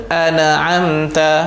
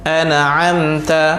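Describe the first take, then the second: The two takes are said the same way.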